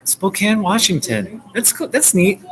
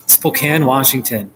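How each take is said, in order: First: Higher, delighted repeat of the place; light up as you say it again; repeating a viewer's hometown with real delight, higher; excited. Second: Said in the usual way. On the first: Real, not acted. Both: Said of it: "Yeah, Spokane".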